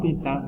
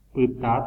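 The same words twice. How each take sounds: First: "pita" with a nasalized final a; nasal vowels. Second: "Pita" with a plain oral final a; oral vowels. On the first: Teacher giving the word for red, nasal vowels. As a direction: let "pita" ring through the nose, like "pintã". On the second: Teacher giving the word for heel, oral vowels. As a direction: keep "Pita" out of the nose. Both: Shown as a demonstration. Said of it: "cambia el significado de la tilde nasal".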